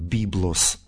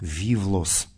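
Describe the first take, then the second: First: It uses the classical ancient Greek pronunciation. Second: It uses the late Byzantine Greek pronunciation. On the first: "В классическом произношении античном это слово читается как" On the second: "в позднем византийском чтении"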